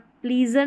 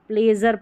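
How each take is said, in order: First: The first vowel is a long 'ee' sound. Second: The first vowel is a short 'eh' sound. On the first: The speaker calls it wrong. "यहाँ पर प्लीजर नहीं पढ़ना" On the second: The speaker calls it right. "प्लेजर पढ़ना है"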